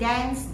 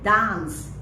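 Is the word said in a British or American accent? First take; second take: American; British. First: It is said in an American accent. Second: It is said in a British accent. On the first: "but if you want to say dance" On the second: "British English"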